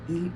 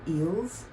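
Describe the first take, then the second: First: No final S sound is pronounced. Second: A final S sound is pronounced. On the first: The speaker calls it right. "The S is silent" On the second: The speaker calls it wrong. "Please don't say ils or elles"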